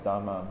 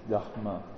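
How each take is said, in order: First: The d has no strong h sound after it. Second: The d has a strong breathy h sound after it. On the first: The speaker calls it wrong. "we usually pronounce as Dharma" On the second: The speaker calls it right. "the more correct pronunciation is Dharma"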